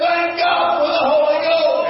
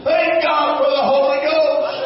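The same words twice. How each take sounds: First: Chanted out as a preacher's shout; shouted repeat. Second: Said in the usual way. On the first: Shown as a demonstration. Preacher repeating his praise to the congregation, shouting. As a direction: hit it again, shouting it to the back pew. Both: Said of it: "I said".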